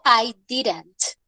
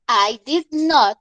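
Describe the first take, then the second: First: Did and not are contracted into one word. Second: Did and not are said as separate words. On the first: It is the normal, everyday way of saying it. "la contracción, que es la forma corta" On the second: It adds emphasis, as when clearing up a misunderstanding. "la forma larga"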